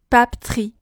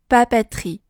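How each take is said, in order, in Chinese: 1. 第二个元音非常弱，或者被省略。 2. 第二个音节有一个清晰的开元音。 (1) "把这个e 发成了非常轻微的一个e，甚至是完全省略" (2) "第二个音节中的字母e 发的是a 的音"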